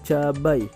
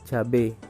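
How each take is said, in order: First: The word ends in an ai diphthong. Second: The word ends in a plain e vowel. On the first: The speaker calls it right. "Kemudian ada cabai" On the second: The speaker calls it wrong. "Kata yang tidak bakunya adalah cabe"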